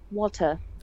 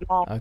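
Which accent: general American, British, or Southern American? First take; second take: British; Southern American. First: It is said in a British accent. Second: It is said in a Southern American accent.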